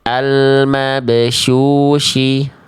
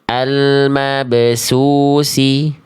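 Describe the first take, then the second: First: The key consonant sounds like sh. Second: The key consonant sounds like s. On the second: "jangan sampai dibaca"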